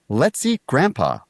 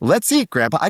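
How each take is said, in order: First: It sounds like a sinister plan to eat Grandpa. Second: It sounds like a happy invitation to Grandpa.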